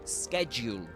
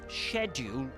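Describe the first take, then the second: First: It is said with an American pronunciation. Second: It is said with a British pronunciation. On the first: "You actually say schedule in American English" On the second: "but schedule, generally speaking, in in, in British English"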